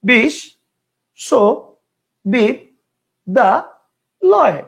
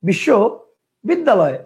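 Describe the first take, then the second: First: The word is broken into five separate chunks. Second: The word is broken into two separate chunks. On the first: "কয়টা হলো? পাঁচটা।" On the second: "কয়টা হলো? দুইটা।"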